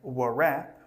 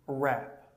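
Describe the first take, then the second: First: The w at the start is pronounced. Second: The w at the start is silent. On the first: The speaker calls it wrong. "Don't say" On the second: The speaker calls it right.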